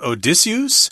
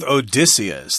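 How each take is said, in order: First: The name is said with a French-sounding pronunciation. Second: The name is said with a common English pronunciation. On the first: "some people pronounce this as Odysseus ... That's a French pronunciation" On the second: "I'm going with Odysseus ... sounds a little more easy to pronounce"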